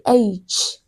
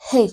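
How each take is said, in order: First: It begins with a vowel sound. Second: It begins with an h sound. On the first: The speaker calls it right. "you start with A" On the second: The speaker calls it wrong. "you don't start with the H sound"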